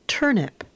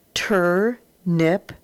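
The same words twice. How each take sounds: First: Said in the usual way. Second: Turnip split into Tur and nip, said slowly, rising at the end; syllable by syllable. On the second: Shown as a demonstration. Teacher sounding out a word for the class, split slow. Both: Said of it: "read across and then put together".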